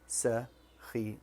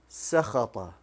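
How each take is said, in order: First: The vowel after the middle consonant is 'i'. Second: The vowel after the middle consonant is 'a'. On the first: The speaker calls it right. "it should have had a kasra" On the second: The speaker calls it wrong. "the middle letter, I gave it a fatha"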